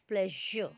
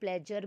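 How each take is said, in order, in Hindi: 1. बीच का व्यंजन नरम 'zh' की ध्वनि है। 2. बीच का व्यंजन कड़ी 'j' की ध्वनि है। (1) "इट इज़ प्लेजर" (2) "हिंदी वाला जा भी नहीं है, प्लेजर भी नहीं है"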